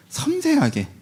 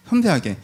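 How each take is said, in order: First: '섬세하게' much higher, falling; emphatic. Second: Said in the usual way. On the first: Shown as a demonstration. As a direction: lift '섬세하게' high then fall.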